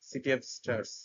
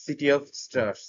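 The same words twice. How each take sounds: First: "of" reduced to a quick weak sound, phrase run together; natural weak of. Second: Very slow, each word laid out; slow demo. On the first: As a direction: say it at natural speed with of swallowed. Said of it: "খুবই দ্রুত তারা উচ্চা". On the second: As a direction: spell the phrase out slowly for learners. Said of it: "preposition গুলো খুব দ্রুত উচ্চারিত হয়". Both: Shown as a demonstration.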